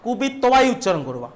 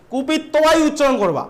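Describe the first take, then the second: First: Said in the usual way. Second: Slow, stressing কুপিত্বাই as kupittobai; teacher drilling কুপিত্বাই slowly; slow emphatic repeat. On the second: Shown as a demonstration. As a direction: drive home কুপিত্বাই slowly. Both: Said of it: "উচ্চারণ ভুল করবে না".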